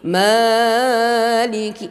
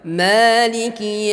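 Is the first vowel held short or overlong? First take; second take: overlong; short. First: The first vowel is stretched beyond two counts. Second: The first vowel is held for two counts. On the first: The speaker calls it wrong. "jangan sampai melebihi maliki. Ah, itu sudah salah ya" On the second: The speaker calls it right. "Mim di sini juga dua harakat"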